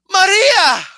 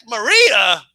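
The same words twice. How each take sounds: First: Loud, high melodramatic cry; hammed-up telenovela shock, voice leaping up; shocked exclamation. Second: Puzzled echo in usual pitch; baffled repeat. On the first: Heroine turns and sees her friend, loud shocked cry. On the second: Retold or imitated. Viewer questioning the sudden arrival, baffled. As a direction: repeat the name in disbelief, less dramatically.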